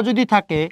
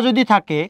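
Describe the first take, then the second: Both takes have the same delivery.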